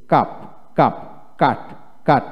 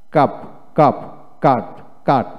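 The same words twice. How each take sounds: The two takes are said the same way.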